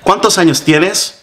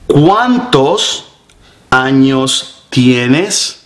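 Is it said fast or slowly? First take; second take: fast; slowly. First: It is said fast. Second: It is said slowly.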